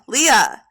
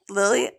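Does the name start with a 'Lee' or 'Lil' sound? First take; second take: Lee; Lil. First: The name starts with a 'Lee' sound. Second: The name starts with a 'Lil' sound. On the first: The speaker calls it right. "but it's Leah, not Lilia" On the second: The speaker calls it wrong. "I keep saying it wrong. I want to say Lilia because it's like L I L"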